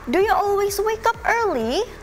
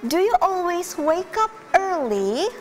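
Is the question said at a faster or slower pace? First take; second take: faster; slower. First: The question is said at a normal pace. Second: The question is said more slowly.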